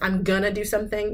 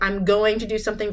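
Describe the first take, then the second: First: Going to is run together into gonna. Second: Going to is said fully, every sound clear.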